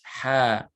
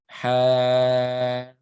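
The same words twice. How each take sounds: First: The vowel is held short, about two counts. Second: The vowel is stretched out long. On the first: The speaker calls it right. "The ha is just two counts" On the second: The speaker calls it wrong. "So you wouldn't say ha"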